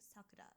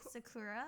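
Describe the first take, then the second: First: All syllables are level, with no stressed syllable. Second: One syllable of the word is strongly stressed. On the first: It is the Japanese way of saying it. The speaker calls it right. "it's a very emphasis neutral" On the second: It imitates how English speakers say it. The speaker calls it wrong.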